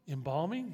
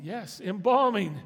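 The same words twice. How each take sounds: First: "Embalming?" asked with a rising, disbelieving lift; mock surprise. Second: "embalming" stressed, louder and slower, falling firmly; firm confirmation. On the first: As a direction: play the doubting listener on "Embalming?". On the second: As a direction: insist on "embalming" with weight. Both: Shown as a demonstration.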